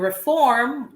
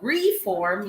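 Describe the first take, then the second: First: It is stressed the way the verb is. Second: It is stressed the way the noun is. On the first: "that's the verb version" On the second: "yun yung parang noun version"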